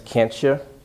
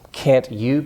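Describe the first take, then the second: First: The t and y blend into one sound. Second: The t and y are said separately.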